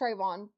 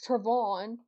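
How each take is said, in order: First: The first syllable sounds like 'tray'. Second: The first syllable sounds like 'trev'. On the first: The speaker calls it right. "It's Trayvon" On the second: The speaker calls it wrong. "not Trevon"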